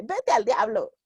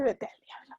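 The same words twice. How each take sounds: First: Said in the usual way. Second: "Vete al diablo" whispered with no voice. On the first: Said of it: "Así de". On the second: Shown as a demonstration. Timid writer barely daring to curse, whispering. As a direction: breathe "Vete al diablo" under your breath.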